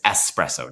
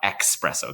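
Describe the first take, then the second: First: The word begins with a plain 'es' sound. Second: The word begins with an 'eks' sound. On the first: The speaker calls it right. "the correct pronunciation of espresso is espresso" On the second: The speaker calls it wrong. "not espresso. There's no X there"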